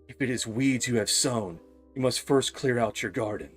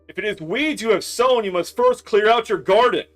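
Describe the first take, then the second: First: It is said at a quiet, normal volume. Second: It is yelled loudly.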